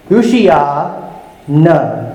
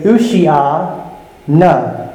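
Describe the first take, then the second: First: "Ushia na" again slow, nah stressed; slow repeat of "Ushia na" for the class; careful Hebrew "Ushia na"; Hebrew pronunciation repeated. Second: "Ushia na" slow and careful, OO-shee-ah nah; careful Hebrew "Ushia na"; Hebrew pronunciation. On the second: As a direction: sound out "Ushia na" syllable by syllable, falling. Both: Shown as a demonstration. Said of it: "do my very best to pronounce those words".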